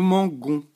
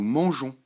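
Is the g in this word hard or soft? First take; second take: hard; soft. First: The g is hard, like the g in go. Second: The g is soft, like the s in measure. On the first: "Sans le E, ça donnerait nous mangons" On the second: "Pareil dans nous mangeons"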